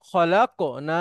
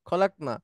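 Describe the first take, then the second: First: The k sound has a short echoing bounce. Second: The k sound is plain, with no echo. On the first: "কফটাকে একবার প্রতিধ্বনির মতো নিয়ে আসবো" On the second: "এটা স্বাভাবিক উচ্চারণ"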